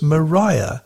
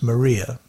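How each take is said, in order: First: The name is said the original way. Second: The name is said the modern way. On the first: This is how the name was first pronounced. "The original pronunciation of the island name was" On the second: This is how the name is pronounced today. "these days it's known as"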